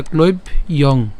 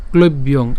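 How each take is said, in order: First: ক্লৈব ইয়ং in two parts, ending on a separate "yong"; split pronunciation. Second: Said in the usual way. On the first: Shown as a demonstration. Teacher breaking down a word, ক্লৈব and ইয়ং said separately. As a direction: say ক্লৈব, then ইয়ং apart. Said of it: "ইয়ংটাকে উচ্চারণ করছি". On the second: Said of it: "এই উচ্চারণটির ক্ষেত্রে আমরা যেটা করলাম".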